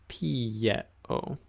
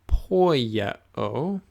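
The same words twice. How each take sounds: First: Pieo said pi-e-o, no o after the p; the right reading pieo, soft ending; correct pronunciation. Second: Poieo with an extra o sound, po-i-e-o; the mistaken reading poieo; wrong pronunciation. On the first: Teacher correcting students to pieo, soft. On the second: Teacher showing students the wrong way, poieo. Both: Shown as a demonstration.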